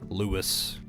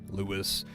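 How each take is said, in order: First: The name is said with a blunt English pronunciation. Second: The name is said with a blunt English pronunciation.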